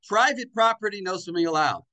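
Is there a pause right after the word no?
no. It runs on with no pause after no.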